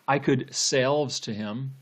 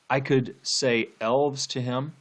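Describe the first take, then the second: First: Say and elves run together, sounding like selves. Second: Say and elves are spoken as separate words. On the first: People themselves are pulling the wall down. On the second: Supernatural beings are pulling the wall down.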